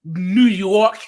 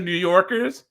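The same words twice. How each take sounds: First: New York with the R dropped; East Coast accent. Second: Said in the usual way. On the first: Shown as a demonstration. Giving an example of the accent, r-less "New York". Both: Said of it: "instead of New Yorkers".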